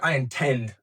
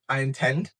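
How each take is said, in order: First: It is said firmly, with strong force. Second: It is said plainly, without much force. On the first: The speaker calls it right. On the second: The speaker calls it wrong.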